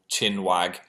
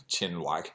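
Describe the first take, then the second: First: Said in the usual way. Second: Amused repeat. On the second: Shown as a demonstration. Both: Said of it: "I don't think I've said that in, like, ten years".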